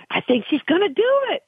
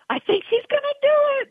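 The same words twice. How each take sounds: First: High, hopeful race-watcher's cheer; excited anticipation. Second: Very high, fast excited squeal; excitement spilling over, racing and high-pitched; mounting excitement. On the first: Trainer reliving watching her filly race, excited and hopeful. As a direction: voice climbing with excitement as she watches. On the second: Trainer reliving her filly nearing the win, wildly excited. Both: Retold or imitated. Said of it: "you just get so excited".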